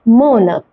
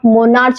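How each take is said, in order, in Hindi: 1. शब्द 'k' ध्वनि से समाप्त होता है। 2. शब्द 'ch' ध्वनि से समाप्त होता है। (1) "ये है मोनक" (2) "इसे आप मोनार्च नहीं पढ़ेंगे"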